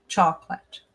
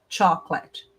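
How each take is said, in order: First: The word is said with two syllables. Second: The word is said with two syllables.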